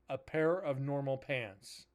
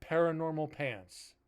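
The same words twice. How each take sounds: First: "A pair of normal pants" slowly, words separated; slow down and split "pair of normal" apart; deliberate, spaced-out "pair of normal" to explain the pun; pun spelled out. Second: Said in the usual way. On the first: Shown as a demonstration.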